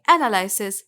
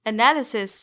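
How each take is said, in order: First: एनालिसिस said "ana-LYE-sis"; wrong pronunciation. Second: एनालिसिस said "uh-NAL-i-sis"; correct pronunciation. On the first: Teacher shows learners the mistake, mispronounced. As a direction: say एनालिसिस with an "eye" in the third syllable. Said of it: "ये इसकी गलत pronunciation". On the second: Teacher gives the correction, clearly pronounced. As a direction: say एनालिसिस with short i after NAL. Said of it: "correct pronunciation है". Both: Shown as a demonstration.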